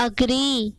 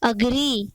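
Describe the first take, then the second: Both takes have the same delivery.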